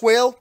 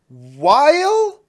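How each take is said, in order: First: The name rhymes with the word 'whale'. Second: The name rhymes with the word 'while'. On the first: "I think that's pronounced whale" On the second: "maybe it's pronounced while"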